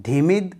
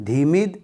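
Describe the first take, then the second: No difference in how they are said.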